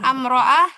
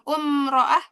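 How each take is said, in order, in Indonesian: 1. Kata ini diawali dengan vokal a. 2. Kata ini diawali dengan vokal u. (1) "Bukan amro'ah" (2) "bukan umro'ah"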